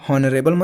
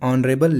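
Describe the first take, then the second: First: The word begins with an audible H sound. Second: The word begins with a vowel, no H sound. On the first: The speaker calls it wrong. "हॉनरेबल मत पढ़ देना" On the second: The speaker calls it right. "तो आपको इसे सही पढ़ना है।"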